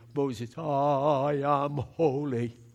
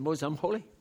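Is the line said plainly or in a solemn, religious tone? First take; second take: solemn; plain. First: It is said in a solemn, religious-sounding tone. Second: It is said in a plain, matter-of-fact tone. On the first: The speaker calls it wrong. "he didn't say it in a religious way" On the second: The speaker calls it right. "Just said"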